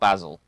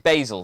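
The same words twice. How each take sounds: First: It is said with a British pronunciation. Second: It is said with an American pronunciation. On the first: "Not basil" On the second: "the Americans say basil"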